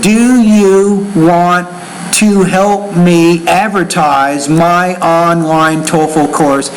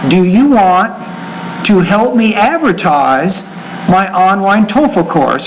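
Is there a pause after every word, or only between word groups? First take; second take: every word; word groups. First: There is a pause after every single word. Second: The pauses come only between groups of words. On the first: The speaker calls it wrong. "That is terrible. You can't pause after every word" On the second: The speaker calls it right. "you group words into thought groups"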